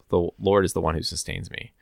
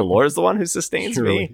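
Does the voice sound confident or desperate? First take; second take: confident; desperate. First: It is said in an assured, confident tone. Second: It is said in a desperate, wondering tone. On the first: The speaker trusts that God is working. "of course, I'm confident that God is working" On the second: Nothing else can explain the speaker's survival. "Is like God is the last resort"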